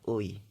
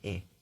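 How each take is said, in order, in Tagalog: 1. Binibigkas ito bilang dumudulas na patinig na 'ui'. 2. Binibigkas ito bilang simpleng patinig na 'e'. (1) "Pero pagka sa isa lang siya" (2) "in spoken Korean, gano'n yung magiging, ah, basa niya"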